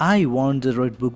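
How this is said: The word 'I' carries the stress. I am the one who wants the book. "ഐ എന്ന് പറയുന്ന വാക്കിന് ഊന്നൽ കൊടുക്കുവാണെങ്കിൽ"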